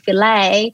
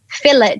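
First: It is said the American way. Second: It is said the speaker's usual Australian way.

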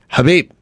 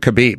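First: The name starts with an H sound. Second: The name starts with a hard K sound. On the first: The speaker calls it right. "The K is silent, by the way. It's Habib" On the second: The speaker calls it wrong. "It doesn't do Khabib"

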